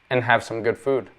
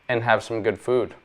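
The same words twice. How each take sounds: The two takes are said the same way.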